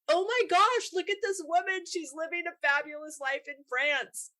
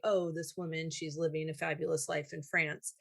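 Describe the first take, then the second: First: It sounds delighted, like admiring praise. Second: It sounds disapproving, like a criticism.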